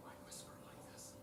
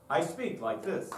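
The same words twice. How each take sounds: First: Unvoiced whisper; teacher demos a whisper. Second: Said in the usual way. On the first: Shown as a demonstration. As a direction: breathe it out softly.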